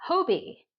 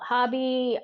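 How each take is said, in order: First: Hobbii said as HOH-bee; long O pronunciation. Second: Hobby said as HAH-bee; alternative short-vowel pronunciation. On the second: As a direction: say Hobby with an open "ah". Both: Shown as a demonstration. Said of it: "some people call it Hobby".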